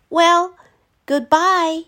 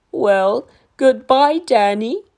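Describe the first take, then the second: First: Put-on high boy voice, louder; sad Danny goodbye. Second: Lightly voiced gentle giant saying goodbye; fond dinosaur farewell. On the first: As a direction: say goodbye bravely. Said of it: "said Danny". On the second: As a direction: say goodbye kindly. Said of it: "said the dinosaur". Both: A narrator's reading.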